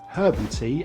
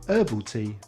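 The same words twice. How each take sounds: First: The H is pronounced, British style. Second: The H is silent, American style.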